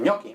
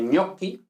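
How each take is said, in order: First: "gnocchi" again, gn as ñ. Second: "gnocchi" with gn said as ñ. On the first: Teacher repeats gnocchi with the ñ sound. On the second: Teacher models gnocchi for Spanish learners. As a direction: start "gnocchi" with a ñ sound. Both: Shown as a demonstration. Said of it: "G N representa la ñ".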